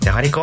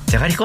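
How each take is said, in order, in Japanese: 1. 怒った口調で言っています。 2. 驚いた口調で言っています。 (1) "怒ってて" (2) "驚いて"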